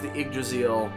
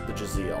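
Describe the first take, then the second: First: The name is said in full with its first syllable. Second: The name is shortened, dropping its first syllable. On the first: The speaker calls it right. "Technically, it's pronounced the Yggdrasil" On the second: The speaker calls it wrong. "I keep wanting to pronounce it just the Draziel"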